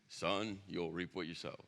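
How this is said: It is said in an imitated dad voice.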